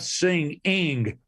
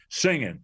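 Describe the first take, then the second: First: The final g sound is clearly pronounced. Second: The final g sound is dropped.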